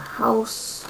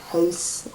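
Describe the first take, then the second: First: The word is said in a plain accent. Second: The word is said in a Canadian accent.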